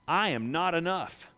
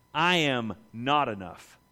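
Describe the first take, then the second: First: Said in the usual way. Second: Lower, slow, sincere "I am not enough"; "I am not enough" with the weight on I, lowered and slowed; humble confession. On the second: Retold or imitated.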